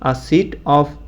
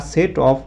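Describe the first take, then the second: First: The word 'set' has an 'i' vowel, like 'sit'. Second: The word 'set' has an 'e' vowel. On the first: The speaker calls it wrong. "সিট অফ বলতে পারো" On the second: The speaker calls it right. "সেটটাই শুদ্ধ উচ্চারণ হবে"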